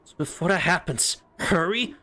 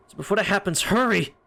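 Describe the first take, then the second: First: Incredulous echo. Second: Said in the usual way. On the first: Acted.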